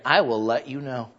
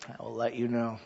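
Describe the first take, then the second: First: Said in the usual way. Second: Dropped low and quiet: I will let you know; softer repeat. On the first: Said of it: "repeated answer". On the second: Shown as a demonstration. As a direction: let it fall away, wry. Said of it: "repeated softer".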